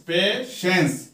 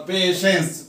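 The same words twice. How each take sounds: First: "पेशेंस" split as पे-शेंस; two-syllable demo. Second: Said in the usual way. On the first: Shown as a demonstration. Teacher showing the class two syllables, "पेशेंस" broken in two. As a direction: say "पेशेंस" in two separate beats with a small gap. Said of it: "पेशेंस में जो है दो syllable है". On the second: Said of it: "दो syllable है".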